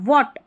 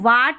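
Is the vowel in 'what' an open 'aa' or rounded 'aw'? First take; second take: aw; aa. First: The vowel is a rounded 'aw'. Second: The vowel is an open unrounded 'aa'. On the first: The speaker calls it right. "ऑ का sound है ए के लिए" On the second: The speaker calls it wrong. "इसको वाट नहीं पढ़ना"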